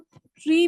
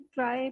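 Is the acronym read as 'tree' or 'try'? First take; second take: tree; try. First: The acronym sounds like the word 'tree'. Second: The acronym sounds like the word 'try'. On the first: "चाहे तो ट्री भी pronounce कर सकते हैं" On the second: "ट्राई pronounce कर सकते हैं"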